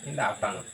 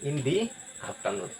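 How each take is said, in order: First: 'The' is said with a short 'thuh' vowel. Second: 'The' is said with a long 'thee' vowel. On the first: The speaker calls it wrong. "এটা হচ্ছে totally wrong" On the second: The speaker calls it right. "এটার উচ্চারণ হবে কি in দি afternoon"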